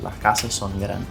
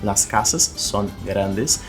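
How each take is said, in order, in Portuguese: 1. Os sons do S são aspirados, como um h. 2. Os sons do S são pronunciados de forma clara. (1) "nessa região costenha do espanhol colombiano eles vão dizer" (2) "a mesma frase que eu citei aqui do exemplo do México"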